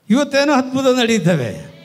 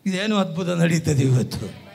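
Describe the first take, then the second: First: Higher, louder exclamation; loud proclamation. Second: Said in the usual way. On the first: Real, not acted. Preacher announcing today's miracle to the congregation, loud proclamation. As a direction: proclaim it to the whole hall.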